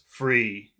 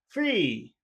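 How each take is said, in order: First: The word is said low and serious. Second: The word is said high and happy. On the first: The speaker calls it wrong. "not not serious" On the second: The speaker calls it right. "but happy"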